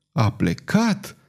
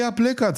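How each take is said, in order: First: Slow, incredulous echo; stunned, stretched-out disbelief; exclaimed question. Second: Said in the usual way. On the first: A narrator's reading. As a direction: draw the words out into a rising question. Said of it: "exclamă Croas".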